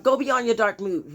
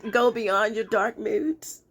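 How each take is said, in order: First: Said in the usual way. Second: Slow, teasing singsong delivery; playful put-on reading. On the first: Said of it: "Okay, let me stop". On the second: Reader giving the day's advice, playfully drawn out. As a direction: draw it out playfully, leftover mock whine. Silly reading before stopping herself.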